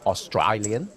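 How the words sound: It is said in a put-on Australian accent.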